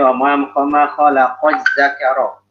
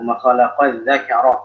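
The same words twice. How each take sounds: First: The last word starts with a 'z' sound. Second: The last word starts with a 'dh' sound. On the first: The speaker calls it wrong. "jangan sampai dzal itu dibaca dengan zai" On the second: The speaker calls it right. "jelaskan huruf dzalnya"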